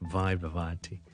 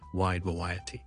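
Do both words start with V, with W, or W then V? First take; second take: V; W. First: Both words begin with a V sound. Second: Both words begin with a W sound. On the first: "读晒V sound 咧就变咗wide variety" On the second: "如果我哋三个咧都读成我哋广东话有嘅W sound 就变咗wide variety"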